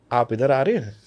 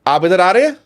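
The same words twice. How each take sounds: First: "आप इधर आ रहे हैं?" at usual pitch, falling at the end; changed intonation. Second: "आप इधर आ रहे हैं?" higher and louder, rising at the end; questioning intonation. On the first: Coach demonstrating intonation change, relaxed falling line. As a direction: keep it level and let "हैं" drop. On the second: Coach demonstrating intonation change, loud rising question. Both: Shown as a demonstration. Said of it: "मैंने इसकी intonation change कर दी".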